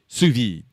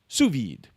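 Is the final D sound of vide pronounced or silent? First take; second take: silent; pronounced. First: The final D sound is left silent. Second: The final D sound is clearly pronounced. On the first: "if it was just V I D, then I guess it would be sous vide" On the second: "if there's a e after a consonant, then you pronounce the consonant"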